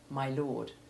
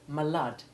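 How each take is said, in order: First: It is said with a plain, ordinary pronunciation. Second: It is said with an affected, clipped pronunciation. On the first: "instead of" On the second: "this type of affectation"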